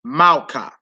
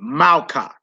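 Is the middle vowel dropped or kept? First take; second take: dropped; dropped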